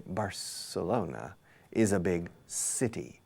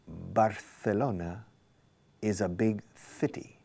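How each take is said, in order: First: The c in Barcelona sounds like s. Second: The c in Barcelona sounds like th. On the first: This is the English way. "in English, you say" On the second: This is the Spanish way with the lisp. "He said"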